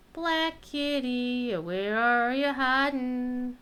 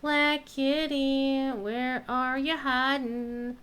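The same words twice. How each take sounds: The two takes are said the same way.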